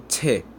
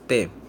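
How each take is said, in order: First: The t has a puff of air after it. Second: The t has no puff of air after it. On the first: "uma consoante aspirada" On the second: "é uma consoante sem voz"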